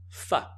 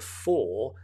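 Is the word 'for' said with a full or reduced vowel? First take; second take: reduced; full. First: The word has a short, weak vowel. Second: The word has a full, clear vowel. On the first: "when we're speaking, the for becomes fa" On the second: "we do say it's famous for"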